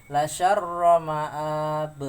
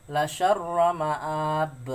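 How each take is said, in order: Both takes have the same delivery.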